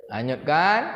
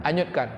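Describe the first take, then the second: First: Breathy secret whisper. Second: Said in the usual way. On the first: Shown as a demonstration. Preacher whispers God's hushed command to Moses' mother.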